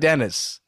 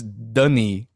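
First: The name is said like English Dennis. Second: The name is said with a French vowel. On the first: The speaker calls it wrong. "it's not Dennis" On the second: The speaker calls it right. "It's Dunny"

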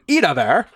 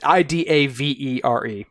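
First: The name is said German-style, ending in -ar. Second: The name is said plainly, as spelled, ending in -ere. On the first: "in like a German kind of" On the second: "It's Idavere"

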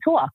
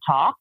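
First: The word has a New York vowel. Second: The word has a general American vowel. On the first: This is how the people the speaker grew up with say it. "they say talk" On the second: This is how people outside the area say it. "we didn't grow up with people who say talk"

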